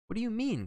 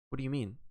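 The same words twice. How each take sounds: First: High-pitched, agitated demand; alarmed cry. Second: Said in the usual way. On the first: A narrator's reading. John demands an explanation from Wells, crying out in alarm. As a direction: cry it out, pitched far higher. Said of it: "cried John again. There was a tremor in his voice". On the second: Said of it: "cried John again".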